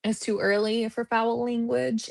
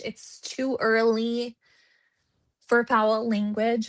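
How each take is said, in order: First: Said in the usual way. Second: Slow, deliberate restatement. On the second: Shown as a demonstration. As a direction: spell it out slowly like a lady. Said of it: "Talk like a lady today".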